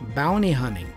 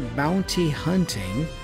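First: The T sounds are dropped. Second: The T sounds are fully pronounced. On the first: "drop those T's and say bounty hunting" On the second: "with the T's being fully pronounced"

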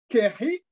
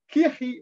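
First: The first vowel sounds like a short e. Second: The first vowel sounds like a short i. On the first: The speaker calls it wrong. "Vim achiri kemo kehi" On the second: The speaker calls it right. "il faut lire en fait kihi"

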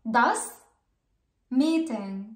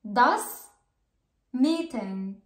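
The two takes are said the same way.

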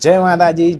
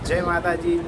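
First: The voice sounds clear with little noise. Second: The voice has lots of background noise. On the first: The speaker calls it right. "હવે બીજો અવાજ જે Mike સાથે છે" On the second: The speaker calls it wrong. "આ Mike વગરનો અવાજ છે, કેટલો ઘોંઘાટ આવે છે"

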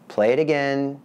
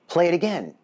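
First: It sounds annoyed and disappointed. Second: It sounds excited and impressed.

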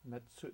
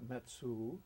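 First: The final u vowel is silent. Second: The final u vowel is clearly pronounced. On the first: The speaker calls it right. "U's at the end of a word ... are often silent or semi-silent" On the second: The speaker calls it wrong. "not Metsu"

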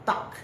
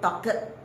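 First: The word is said with one syllable. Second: The word is said with two syllables. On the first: The speaker calls it right. "Satu suku kata saja" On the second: The speaker calls it wrong. "Jangan sebut talked"

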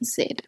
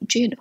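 First: The z sound is soft and light. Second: The z sound is hard and forceful. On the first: The speaker calls it right. "এটা হবে জেড" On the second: The speaker calls it wrong. "জেড হবে না"

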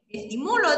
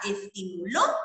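First: The stress is on the third syllable, mu. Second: The stress is on the last syllable, lo. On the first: It is a present-tense verb form. "la sílaba tónica la hago en mu" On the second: It is a past-tense verb form. "la puedo convertir en aguda"

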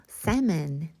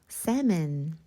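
The two takes are said the same way.

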